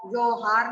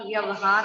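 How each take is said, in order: First: व्यवहार said as vyohar, the va after ya swallowed; wrong pronunciation. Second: व्यवहार said clearly as vyavahar, every syllable sounded; correct pronunciation. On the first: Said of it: "व्यवहार नहीं होता". (व्यवहार को ग़लत उच्चारण में, व्योहार की तरह) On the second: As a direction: say व्यवहार carefully as vya-va-har. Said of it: "व्यवहार होता है". (व्यवहार का शुद्ध उच्चारण, व्य-व-हार) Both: Shown as a demonstration.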